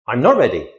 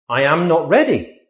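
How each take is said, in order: First: I'm as one short syllable; contracted. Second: Said in the usual way. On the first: Shown as a demonstration. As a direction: glide I'm into not ready.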